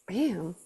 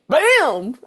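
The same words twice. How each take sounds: First: The word is said softly, with a smooth inflection. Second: The word is said hard and punchy. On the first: The speaker calls it right. "like soft inflection" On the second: The speaker calls it wrong. "it's not like uh like bam"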